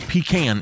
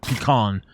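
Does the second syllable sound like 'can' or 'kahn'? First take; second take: can; kahn. First: The second syllable sounds like 'can'. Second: The second syllable sounds like 'kahn'. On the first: The speaker calls it right. "It is can, C A N" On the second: The speaker calls it wrong. "it's not K A H N or K H A N"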